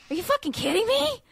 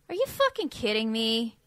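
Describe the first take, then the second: First: It sounds excited and delighted. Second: It sounds annoyed and exasperated.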